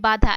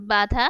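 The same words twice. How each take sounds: First: "বাধা" with a forceful nasal first vowel; nasalised, emphasised vowel. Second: Said in the usual way. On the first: Shown as a demonstration. Teacher contrasting oral and nasal vowels, "বাধা" said with nasal emphasis. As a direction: push "বাধা" through the nose on the first vowel. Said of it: "একটু জোর দিয়ে". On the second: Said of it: "স্বাভাবিকভাবে উচ্চারণ করছি".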